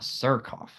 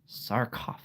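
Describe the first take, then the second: First: The first vowel sounds like the one in 'fur'. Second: The first vowel sounds like the one in 'car'. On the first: The speaker calls it wrong. "not sir" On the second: The speaker calls it right. "It's sar"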